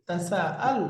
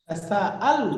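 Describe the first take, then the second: The two takes are said the same way.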